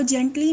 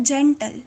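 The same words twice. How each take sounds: First: जेंटली with an "-lee" ending; mispronunciation demo. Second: जेंटल ending in "-tal", no "ee"; correct pronunciation. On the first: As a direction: misread it as जेंटली, ending in a long "ee". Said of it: "इसको जेंटली नहीं पढ़ना". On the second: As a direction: model जेंटल with a short final syllable closing on L. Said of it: "नहीं पढ़ना ये है जेंटल". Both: Shown as a demonstration.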